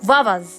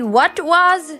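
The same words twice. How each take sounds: First: The t at the end of what is dropped. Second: The t at the end of what is pronounced. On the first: "native speakers say what was" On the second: "Like we say what was"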